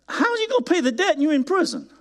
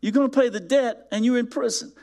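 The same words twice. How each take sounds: First: High, fast, disbelieving; incredulous question. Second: Said as a sarcastic statement; flat restatement. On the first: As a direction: ask it as if it were absurd. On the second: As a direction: let the absurdity sit. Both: Shown as a demonstration. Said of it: "that's how ridiculous".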